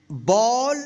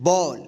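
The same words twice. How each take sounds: First: Ball read with a rising list tune; ball with an upward, continuing tune. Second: Ball read with a falling, final tune; ball with a settled downward end. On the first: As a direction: say ball as if more words follow, pitch lifting. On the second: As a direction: close the list by dropping the pitch on ball. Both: Shown as a demonstration. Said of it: "direct पढ़ना सीखते हैं".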